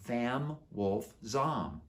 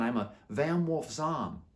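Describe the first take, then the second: First: Vam Wolf Zom said very slowly, each word apart; spelled-out repeat. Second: Said in the usual way. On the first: Shown as a demonstration. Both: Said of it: "Vam Wolf what?".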